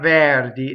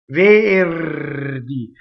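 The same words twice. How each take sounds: First: The R is not rolled. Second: The R is rolled before the D. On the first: The speaker calls it wrong. "Doesn't rhyme with chair. It's not verdi" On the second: The speaker calls it right. "R's that touch a consonant roll"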